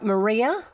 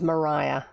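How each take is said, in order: First: The middle vowel sounds like 'ee'. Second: The middle vowel sounds like 'eye'. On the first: This is how the spelling suggests it is said. "it does look like Maria" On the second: This is how it was said in New Zealand. "the way it was always pronounced in New Zealand is Mariah"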